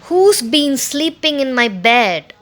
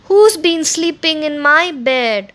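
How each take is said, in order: First: It is said in a great big voice. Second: It is said in a tiny little voice.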